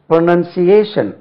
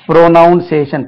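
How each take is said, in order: First: The second syllable sounds like 'nun'. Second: The second syllable sounds like 'noun'. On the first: The speaker calls it right. "இதுக்கு ப்ரொனவுன்சேஷன் என்று உச்சரிக்க கூடாது" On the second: The speaker calls it wrong. "ஜெனரலா நம்ம"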